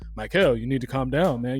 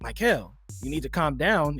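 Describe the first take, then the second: First: It is said in a deep voice. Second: It is said in a normal voice.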